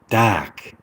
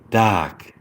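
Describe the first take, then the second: First: It is said in a British accent. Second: It is said in a British accent.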